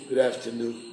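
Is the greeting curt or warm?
curt. The greeting sounds curt and cold. Something is wrong with the person. "You say, "Whoa, what's up?""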